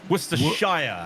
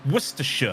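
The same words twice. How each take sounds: First: It is said with an American pronunciation. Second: It is said with a British pronunciation.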